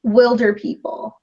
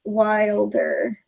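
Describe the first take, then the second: First: WILDER said slowly with short i, as in "will"; slow, clear "Wilder" rhyming with "builder"; slowed-down title. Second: "Wilder" said WILE-der, with long i; "Wilder" with the vowel of "wild"; long-i version. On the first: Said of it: "but slower". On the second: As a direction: sound out "Wilder" as in "more wild". Trying out the other pronunciation. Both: Shown as a demonstration.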